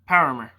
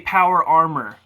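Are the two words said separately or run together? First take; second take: run together; separately. First: The words are run together quickly into one. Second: The two words are said separately and fully. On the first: "I say it really fast" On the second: "I say Power Armor"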